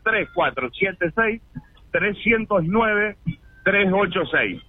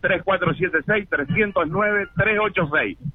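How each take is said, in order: First: The number is said more slowly. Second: The number is said at normal speed.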